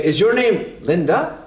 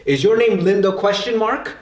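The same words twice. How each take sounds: First: Linda rising at the end; rising question tone. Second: Said in the usual way. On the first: Shown as a demonstration. Teacher shows students the right English question tune, rising. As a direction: let Linda lift into a question. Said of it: "We change the tone". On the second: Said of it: "we don't actually say".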